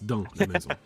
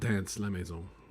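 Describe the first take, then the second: First: The final S of the first word is silent. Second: The final S of the first word is sounded. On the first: The speaker calls it right. "It's dans la maison" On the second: The speaker calls it wrong. "it's not dance la maison"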